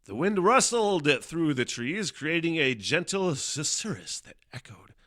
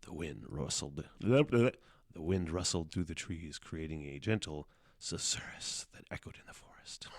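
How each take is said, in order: First: Mock dramatic recital; overdramatic reading. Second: Calm it down and read it gently; subdued storybook read; toned-down reading. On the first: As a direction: read it like an epic movie trailer. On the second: Shown as a demonstration. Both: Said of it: "I shouldn't read it like that".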